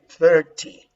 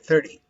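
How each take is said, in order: First: It is said with a British accent. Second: It is said with an American accent. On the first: "But this is British, British pronunciation" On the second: "for American, you say thirty"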